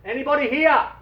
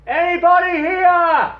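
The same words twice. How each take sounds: First: Called out loud and high; yell. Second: Drawn-out, very loud high call; louder yell. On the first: Dave shouting to find anyone on the island. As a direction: call out across the island. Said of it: "He yells". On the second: Dave yelling louder a second time across the island. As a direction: shout it slower and even louder across the island. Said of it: "he yells again, louder". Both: Acted.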